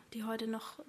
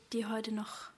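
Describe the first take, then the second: No difference in how they are said.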